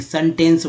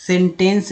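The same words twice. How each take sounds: First: सेंटेंस said as "sun-tence", with a short "uh"; first E as "uh". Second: सेंटेंस said as "sen-tence", with a clear "eh"; first E as "eh". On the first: Teacher showing the form to use, सेंटेंस as "sun-tence". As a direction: open सेंटेंस with "sun", not "sen". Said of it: "सेंटेंस बोलते हैं". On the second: Teacher showing the form not to use, सेंटेंस as "sen-tence". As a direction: open सेंटेंस with "sen", rhyming with "pen". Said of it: "सेंटेंस नहीं बोलते". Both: Shown as a demonstration.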